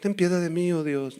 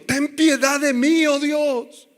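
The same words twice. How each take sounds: First: It is said flatly, without emotion. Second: It is said dramatically, with deep emotion.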